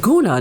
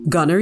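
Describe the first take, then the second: First: The name is said in a posh, elevated way. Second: The name is said in a plain, ordinary way.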